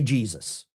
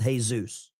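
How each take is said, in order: First: The name is said with an English pronunciation. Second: The name is said with a Spanish pronunciation. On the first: This is how the speaker's own group says the name. The speaker calls it right. "We say Jesus" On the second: This is how outsiders say the name. The speaker calls it wrong. "people that would pronounce the name Jesus with Jesus"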